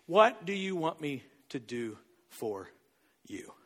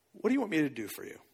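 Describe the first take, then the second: First: Word by word, with pauses, low. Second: Low, soft, fast-flowing question; soft quick question. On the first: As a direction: spell out the question, dropping softly on YOU. Repeats question slowly for weight. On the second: Jesus asks the blind man, soft quick question. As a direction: ask it gently in one quick run. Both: Retold or imitated.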